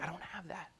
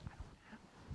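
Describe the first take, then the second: First: Very soft, a little higher; hushed reply. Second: Very soft, breathy under-voice; hushed caller on the phone; hushed reply. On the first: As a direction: repeat it quietly, almost under the breath. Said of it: "So like". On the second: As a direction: say it barely above a breath, like a nervous caller. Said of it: "and he goes". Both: Retold or imitated.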